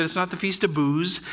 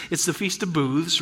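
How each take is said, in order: First: "Booze" ending on a buzzed z; careful contrast on "Booze"; clarifying pronunciation. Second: "Booths" with a th before the final s; careful contrast on "Booths"; clarifying pronunciation. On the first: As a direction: say "Booze" clearly, with a plain z ending. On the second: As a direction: say "Booths" clearly, sounding the th. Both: Shown as a demonstration. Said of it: "being sure that we're clear".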